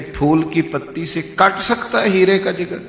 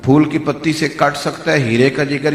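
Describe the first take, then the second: First: It sounds like a sarcastic, doubting remark. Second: It sounds like a sincere, affirming statement.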